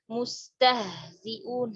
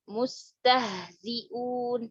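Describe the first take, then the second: First: Mustahziun again, very slow and even; slow repeat. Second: Mustahziun drawn out very slowly; slow demo word. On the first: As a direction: repeat Mustahziun slowly for the class. (Mustahziun diulang pelan) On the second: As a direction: recite Mustahziun syllable by syllable. (Mustahziun dibaca sangat pelan) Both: Shown as a demonstration. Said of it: "Haknya sukun".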